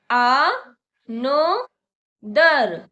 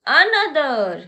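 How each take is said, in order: First: Another stretched very slowly and louder, syllable by syllable; slow demo. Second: Said in the usual way. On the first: Shown as a demonstration. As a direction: pull another out slowly for the class. (another को बहुत धीरे खींचकर) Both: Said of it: "मेरे साथ बोलिए".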